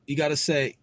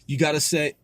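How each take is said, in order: Both takes have the same delivery.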